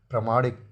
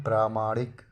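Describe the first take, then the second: First: प्रामाणिक with short first vowel; wrong form. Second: प्रामाणिक with long first vowel; correct form. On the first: Teacher showing the error, प्रामाणिक with short pra. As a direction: say प्रामाणिक as pra-maa-nik. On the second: Teacher correcting it, प्रामाणिक with long praa. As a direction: say प्रामाणिक as praa-maa-nik. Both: Shown as a demonstration. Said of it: "प्रामाणिक नहीं".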